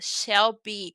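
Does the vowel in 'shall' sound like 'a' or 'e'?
e. The vowel in shall sounds like e. This is a strong American cowboy accent. "ele usa um E ali, ele fala shall be"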